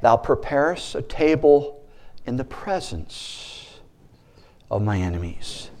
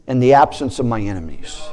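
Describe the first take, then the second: First: "presence" slowed and much softer, fading; the true verse, "presence" lingered over quietly; slow, soft scripture. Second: "absence" pressed, falling at the end; the mistaken wish, "absence" stressed. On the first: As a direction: let "in the presence" drop to a near hush. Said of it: "Jesus wants all of us to learn that". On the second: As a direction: lean on "absence" as the wished-for version. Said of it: "That's how we pray". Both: Shown as a demonstration.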